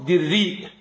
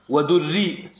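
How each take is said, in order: First: "دري" with an i after the dal; kasra on the dal. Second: "ودري" with a u after the dal; damma on the dal. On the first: Student reading a variant to the sheikh, "دري" with kasra. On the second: Student reading a variant to the sheikh, "ودري" with damma. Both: Shown as a demonstration. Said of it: "بكسر الدال وضمها مع الهمز".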